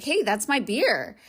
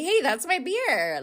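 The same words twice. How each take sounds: First: Slow, firm hey that's my beer; telling a date off over a beer; firm calling out. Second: Higher, slow hey that's my beer; showing how she told her date off; firm calling out. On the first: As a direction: plainly claim your beer back. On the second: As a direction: assert it simply but firmly. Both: Retold or imitated. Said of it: "that's exactly how I said it".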